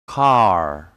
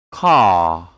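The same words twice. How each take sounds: First: "Car" with the R sounded; American pronunciation. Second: "Car" with long "ah", silent R; British pronunciation. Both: Shown as a demonstration. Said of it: "And American English will be".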